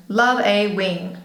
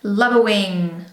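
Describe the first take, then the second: First: "a" said as "ay" in slow "Love a wing"; full-vowel "a". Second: Said in the usual way. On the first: Real, not acted. Vlogger admiring her eyeliner, "a" pronounced "ay". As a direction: slowly, sound the "a" like the letter A. Same words, article changed to "ay.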